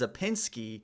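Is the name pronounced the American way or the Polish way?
American. The name is said with an American pronunciation. "that's Americanized"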